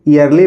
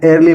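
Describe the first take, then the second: First: The word starts with an ee vowel. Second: The word starts with an air vowel. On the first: "ईयरली पढ़ेंगे" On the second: "या एयरली पढ़ेंगे"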